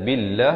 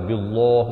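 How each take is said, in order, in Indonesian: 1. Kata itu diucapkan dengan bunyi tipis dan ringan. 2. Kata itu diucapkan dengan bunyi tebal dan berat. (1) "lafz jalalah ini dibaca nipis dua harakat" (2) "Jangan dibaca tebal. ... itu tak betul"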